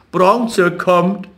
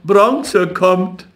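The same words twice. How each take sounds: First: Higher, sing-song taunt on Bronze; taunting call. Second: Higher, sing-song repeat of Bronze; taunting call. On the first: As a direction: call it out mockingly. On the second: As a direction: keep chanting it. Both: A narrator's reading. Street boys teasing Jakob, sing-song calling. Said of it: "die Straßenjungen riefen".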